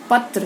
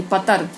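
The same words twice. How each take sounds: First: पत्र with T and R joined; correct cluster. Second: पतर with a vowel between T and R; wrong split cluster. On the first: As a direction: say पत्र with no vowel between T and R. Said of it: "सही". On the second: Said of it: "गलत". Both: Shown as a demonstration.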